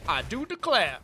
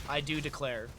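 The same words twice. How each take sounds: First: Southern belle. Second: Said in the usual way. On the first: Pretend. Caster trying a Southern accent on a chat phrase.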